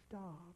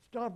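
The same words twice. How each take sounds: First: The word is said softly and meekly. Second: The word is said forcefully with authority. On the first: The speaker calls it wrong. "you don't just say, oh" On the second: The speaker calls it right. "you use authority, you use power in your voice"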